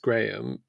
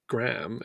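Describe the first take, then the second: First: The name is said the British way. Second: The name is said the American way.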